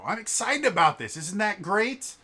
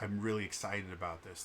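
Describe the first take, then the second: First: High, loud burst of enthusiasm; unabashed excitement. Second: Said in the usual way. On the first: Acted. Passionate people share what they love with others, unabashed excited shout. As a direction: shout it with gleeful, unapologetic passion. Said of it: "completely unabashed". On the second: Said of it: "They don't say".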